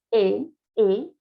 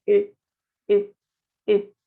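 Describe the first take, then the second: First: "E" with lips spread open, as in Spanish; drawn-out open Spanish "E"; Spanish open-lipped E. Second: "E" said through lips rounded as for O; short French "E" with closed, rounded lips. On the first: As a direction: say a plain Spanish "E", lips unrounded. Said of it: "nosotros abrimos los labios". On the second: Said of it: "E con los labios cerrados". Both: Shown as a demonstration.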